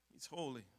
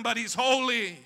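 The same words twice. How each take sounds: First: Much softer, lower, nearly breathed "holy"; hushed reverence. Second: Louder, insistent "holy" pressed out; firm declaration. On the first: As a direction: let "holy" fall into a hush. Hushed final repeat. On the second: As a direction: declare "holy" over the pain. Hurting but declaring holiness. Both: Acted.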